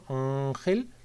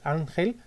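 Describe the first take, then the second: First: The n is made far back in the throat. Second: The n is made behind the upper teeth. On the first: "hasta atrás del todo, hasta la campanilla" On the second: "desde los alveolos"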